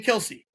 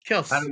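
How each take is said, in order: First: The name ends with an ee vowel sound. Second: The name ends on the s consonant. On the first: This is how most people say the name. "So we say Kelsey" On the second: This is how the name's owners say it. "there's no E at the end"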